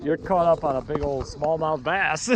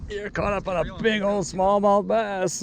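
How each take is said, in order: First: Said in the usual way. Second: Slow sing-song. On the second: Real, not acted. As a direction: sing it back playfully and slowly. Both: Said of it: "said again".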